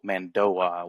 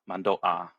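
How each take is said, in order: First: A w-like glide joins the last two vowels. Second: The airflow stops sharply before the last vowel. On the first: The speaker calls it wrong. "you don't go Mandoa with like a W like gliding in there" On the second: The speaker calls it right. "You stop at the Mando and then ah"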